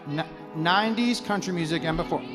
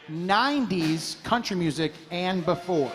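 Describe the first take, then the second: First: The phrase is said at a normal pace. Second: The phrase is said at a slower pace.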